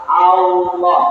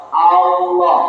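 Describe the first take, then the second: Both takes have the same delivery.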